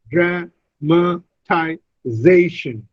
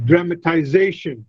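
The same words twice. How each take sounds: First: "dramatization" very slow, DRA, MA, TI, ZA-TION with pauses; syllable by syllable. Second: "dramatization" in one flow, stressed on -ZA-; stress on fourth syllable. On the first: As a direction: break "dramatization" into separate syllables, stressing ZA. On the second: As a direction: say "dramatization" as dra-ma-ti-ZA-tion, unbroken. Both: Shown as a demonstration. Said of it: "The stress is on the".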